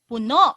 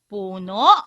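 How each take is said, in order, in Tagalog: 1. Nasa ikalawang pantig ang diin. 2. Nasa unang pantig ang diin. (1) "ang puno ay o umaapaw" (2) "Ang puno ay ang tree sa English"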